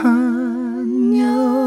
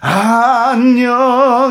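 First: It is said softly and soothingly. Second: It is pushed out forcefully.

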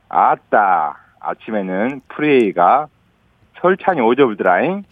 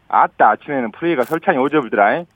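First: It is said slowly, in separate chunks. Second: It is said faster, smoothly connected.

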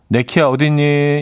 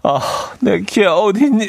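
First: It is said in a plain reading tone. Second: It is said with desperate, heartfelt emotion.

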